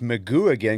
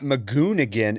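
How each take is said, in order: First: The name ends without an N sound. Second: The name ends with an N sound. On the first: The speaker calls it right. "there's no N" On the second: The speaker calls it wrong. "it's not Magoon again"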